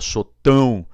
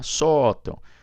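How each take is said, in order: First: The stress is on the last syllable. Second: The stress is on the first syllable. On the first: The speaker calls it wrong. "se você chamar isso aqui no parquinho, fica sotão" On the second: The speaker calls it right. "desloca aqui do AN, joga aqui na vogal três"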